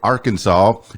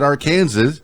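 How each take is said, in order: First: The end sounds like 'saw', the usual way. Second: The end sounds like the word 'Kansas'. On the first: The speaker calls it right. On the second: The speaker calls it wrong.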